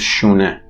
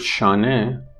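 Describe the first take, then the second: First: The first vowel is a rounded 'oo' sound. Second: The first vowel is an open 'ah' sound. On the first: This is the spoken Tehran form. "in Tehran Persian is pronounced shune" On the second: This is the bookish form. "the word shane"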